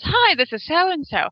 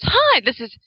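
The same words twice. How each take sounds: First: Slower, higher mimic of her sing-song hello; girlfriend's greeting. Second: Light imitation of a cheerful voicemail hello; a slightly bright mimic of her recorded hi; girlfriend's greeting. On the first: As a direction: stretch the greeting out the way her message does. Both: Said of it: "she goes".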